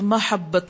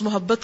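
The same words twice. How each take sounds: First: The first vowel is a, as in mahabbat. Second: The first vowel is u, as in muhabbat. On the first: This is the Arabic form. "عربی میں لفظ محبت کو محبت میم کی زبر سے بولتے ہیں" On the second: This is the everyday Urdu form. "آپ اردو والا ہی بولیے"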